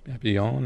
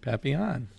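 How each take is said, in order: First: It is said with a French pronunciation. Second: It is said with an American pronunciation.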